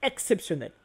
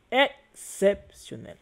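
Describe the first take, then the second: First: Said in the usual way. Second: "Exceptionnel" slowly split into syllables, higher; drawn-out emphasis. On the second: Real, not acted. Teacher marvels at the shared meaning, "Exceptionnel" slowly drawn out. Same word repeated, drawn out.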